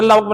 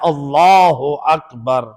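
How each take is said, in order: First: Allah runs straight into Akbar without 'u'. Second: Allah ends with a 'u' sound before Akbar. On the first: The speaker calls it wrong. "ये तो गलत पढ़ते हैं" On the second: The speaker calls it right. "तस्बीह जनाब ज़हरा है"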